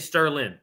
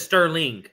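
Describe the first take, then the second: First: The final g sound is dropped. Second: The final g sound is pronounced. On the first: The speaker calls it wrong. "They dropped the G" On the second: The speaker calls it right. "nobody ever says Sterling"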